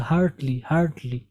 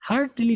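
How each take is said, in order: First: HEARTILY as two beats "hart-li"; correct "hart-li". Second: HEARTILY with a full i after t, raised; wrong "har-ti-li". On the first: Teacher models the right word for learners, correct "hart-li". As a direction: join t to l in "HART-li", falling. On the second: Teacher rejects this reading, wrong "har-ti-li". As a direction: show the mistaken "har-TI-li". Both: Shown as a demonstration. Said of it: "हर्टली नहीं होता".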